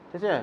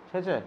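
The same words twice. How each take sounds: Both takes have the same delivery.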